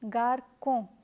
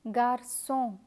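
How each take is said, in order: First: The middle consonant is a K sound. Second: The middle consonant is an S sound. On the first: The speaker calls it wrong. "If you forget to add the cedilla, garçon would be pronounced as garcon" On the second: The speaker calls it right. "the K sound changes to S and the word is pronounced as garçon"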